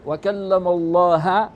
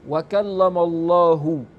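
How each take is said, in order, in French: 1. Le nom se termine par une voyelle finale a. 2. Le nom se termine par une voyelle finale u. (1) "toi tu dis wa kallama Allah, tu as changé le sens" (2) "au lieu de dire wa kallama Allahu"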